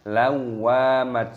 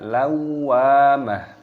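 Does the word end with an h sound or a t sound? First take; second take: t sound; h sound. First: The word ends with a t sound. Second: The word ends with a soft h sound. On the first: The speaker calls it wrong. "bukan lawamat, salah" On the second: The speaker calls it right. "maka dibaca lawamah"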